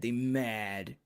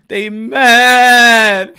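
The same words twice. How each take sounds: First: Said in the usual way. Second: Louder, laughing through the words. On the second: Real, not acted. Host laughing at the mad Canelo haters. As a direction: crack up mocking the haters.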